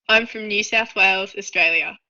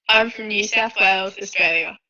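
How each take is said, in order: Both takes have the same delivery.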